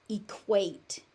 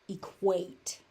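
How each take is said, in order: No difference in how they are said.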